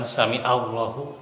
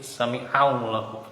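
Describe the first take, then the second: First: The middle of sami has a plain vowel. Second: The middle of sami has a throaty ain. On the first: The speaker calls it wrong. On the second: The speaker calls it right. "pakai ain"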